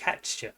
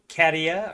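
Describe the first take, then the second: First: The name is said with a 'ch' sound. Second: The name is said without a 'ch' sound. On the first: "He throws a C H sound in it" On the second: "you might think Katia or Katya"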